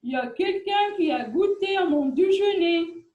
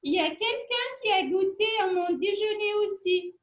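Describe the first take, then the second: First: It is said in a big, deep voice. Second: It is said in a soft, gentle voice.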